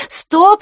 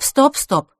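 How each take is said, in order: First: Stop call. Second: Softer stop. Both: Acted. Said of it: "миролюбиво сказала она".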